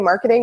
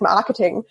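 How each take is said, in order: First: It is said with an American English accent. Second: It is said with a fake German accent. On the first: Germans listening would not understand it. "you can't say marketing" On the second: Germans listening can understand it. "You have to do like this like fake German accent"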